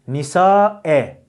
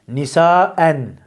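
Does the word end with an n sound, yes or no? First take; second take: no; yes. First: The word ends on a vowel, without n. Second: The word ends with an n sound. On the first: The speaker calls it right. "O endeki nunu atarsınız" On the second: The speaker calls it wrong. "Nisaen değil"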